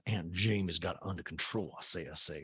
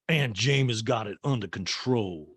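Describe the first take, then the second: First: Lower, softer mock Southern drawl on "Aunt Jamie's got it under control"; comic Southern matron voice. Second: Said in the usual way. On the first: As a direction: do an old Southern belle saying "I say, I say". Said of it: "I like that it says". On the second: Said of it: "Son's like".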